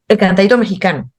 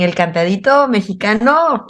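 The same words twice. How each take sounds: First: "el cantadito mexicano" in Nicaraguan intonation, phrase cut short. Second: "el cantadito mexicano" in a Mexican lilt that swings at the end; mild imitation of a Mexican sing-song accent. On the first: Shown as a demonstration. Nicaraguan guest shows how her people say it: Nicaraguan intonation. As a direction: Nicaraguan accent with a clipped falling end. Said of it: "decimos, por ejemplo". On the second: Nicaraguan guest imitates how Mexicans say it: light Mexican sing-song. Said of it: "Y en México dicen".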